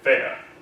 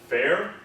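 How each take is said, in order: First: British accent with the R barely heard. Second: American accent with the R clearly sounded.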